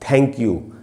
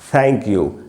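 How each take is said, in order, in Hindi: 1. 'th' एक कठोर, हवा वाली (aspirated) स्टॉप ध्वनि है। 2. 'th' दाँतों के बीच से निकलने वाली एक नरम सरसराहट है। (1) "ऐसे नहीं बोलना है" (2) "ऐसे बोलना है।"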